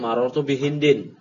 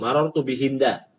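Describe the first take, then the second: First: The last word ends in an 'in' sound. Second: The last word ends in a plain 'a' sound. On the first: The name is treated as fully declinable. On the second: The name is treated as a diptote. "kalau antum bacanya marotu bihinda, berarti dia, ya, hinda itu majrur bi'ala, wa'alamatu jari al-fathah"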